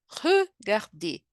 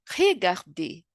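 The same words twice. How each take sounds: First: "regarder" slowly, with a rounded schwa in the first syllable; correct French way. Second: "regarder" with a Brazilian R and a plain e; wrong Portuguese way. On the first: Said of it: "é regarder". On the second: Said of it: "Não é regarder". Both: Shown as a demonstration.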